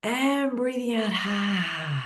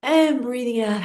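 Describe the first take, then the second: First: Slow, drawn-out exhale cue; guided breath. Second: Bright breath cue. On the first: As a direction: stretch it like a long out-breath. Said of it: "And now a big breath in". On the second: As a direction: lift the voice on the out-breath. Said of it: "one more big breath in". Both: Shown as a demonstration.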